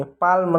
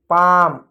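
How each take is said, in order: First: पाल्म with an audible L before m; L wrongly sounded. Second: पाम with long आ straight into m; silent L. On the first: Teacher showing what not to read, पाल्म with L pronounced. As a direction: voice the L in पाल्म, as the mistaken reading. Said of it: "पाल्म नहीं". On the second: Teacher correcting the reading, पाम with the L left silent. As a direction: say पाम with no L, vowel held. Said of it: "एल silent होता है". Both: Shown as a demonstration.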